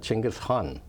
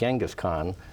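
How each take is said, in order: First: The name begins with a ch sound. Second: The name begins with a soft j sound. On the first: This is how it is said in Mongolian. "the Mongolian pronunciation is" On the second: This is the usual American way of saying it. "the American or standard pr pronunciation is"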